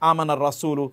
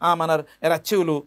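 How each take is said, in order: First: The words are pronounced carefully and clearly. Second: The words are pronounced in a badly distorted way. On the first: The speaker calls it right. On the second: The speaker calls it wrong.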